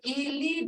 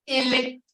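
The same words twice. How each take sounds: First: "ili" drawn out with a tone; long, toned vowel. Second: "ili" with a short final sound; short vowel. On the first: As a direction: stretch "ili" slowly, letting the tone be heard. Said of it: "you hear those sounds, the tone of it". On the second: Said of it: "And foot". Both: Shown as a demonstration.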